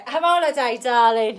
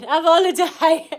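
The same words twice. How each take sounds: First: Louder, teasing call to take a break; cheery holiday nudge; playful urging. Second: Much higher, loud sing-song holiday call; hammed-up cheery holiday cry; hammed-up urging. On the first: Acted. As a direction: egg them on playfully. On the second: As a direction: overplay the invitation. Repeats it, bigger.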